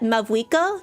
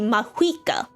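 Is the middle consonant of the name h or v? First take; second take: v; h. First: The middle consonant is a v sound. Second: The middle consonant is an h sound. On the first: The speaker calls it wrong. "they pr- spell and pronounce it as Mavuika" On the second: The speaker calls it right. "is actually supposed to be Mahuika... there's an H instead of a V"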